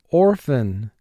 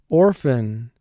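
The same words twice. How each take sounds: Both takes have the same delivery.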